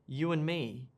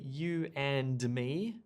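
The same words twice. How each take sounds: First: The d sound in and is dropped. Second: The d sound in and is clearly pronounced. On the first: The speaker calls it right. "There's no D sound there" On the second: The speaker calls it wrong. "I don't say"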